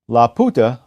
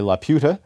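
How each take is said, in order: First: The name is given a Spanish-style pronunciation. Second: The name is given an English-style pronunciation. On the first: "I pronounce it that way" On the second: "rather than the English way"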